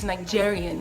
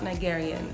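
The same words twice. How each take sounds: First: The word is said in a standard English way. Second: The word is said in a Filipino-style way. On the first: The speaker calls it right. "it's Nigerian" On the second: The speaker calls it wrong. "not Nigerian"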